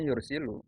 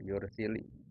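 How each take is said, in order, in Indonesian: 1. Kata ini berakhir dengan vokal u. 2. Kata ini berakhir dengan vokal i. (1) "harusnya yursilu" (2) "dibaca kasroh"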